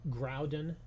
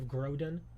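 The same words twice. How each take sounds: First: The first syllable sounds like the word 'ground'. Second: The first syllable does not sound like 'ground'. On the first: The speaker calls it right. "I call it Groudon because it sounds like Groudon" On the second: The speaker calls it wrong. "instead of Groudon"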